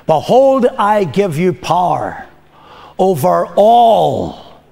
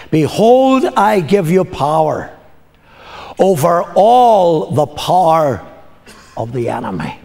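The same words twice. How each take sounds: First: Slow, deliberate, each word weighed; slow it right down so it sinks in; slowly. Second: Said in the usual way. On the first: Shown as a demonstration. Preacher repeats the verse to the congregation, slowly. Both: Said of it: "I'm gonna say it slowly".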